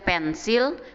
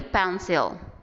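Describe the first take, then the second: First: It is pronounced the Indonesian way. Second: It is pronounced the English way. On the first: "Kalau bahasa Indonesia pensil" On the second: "kalau ini pencil"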